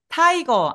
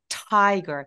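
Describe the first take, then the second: First: It is said with Korean-style syllables. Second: It is said with a bursting English t. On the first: The speaker calls it wrong. "타이거 아니고" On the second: The speaker calls it right. "앞에 으을 머물고 터져 나오는 소리예요"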